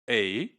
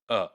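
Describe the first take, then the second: First: It is said with a full vowel. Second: It is said with a reduced schwa vowel. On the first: "the complete form" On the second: "in connected speech, it becomes a, a, shua"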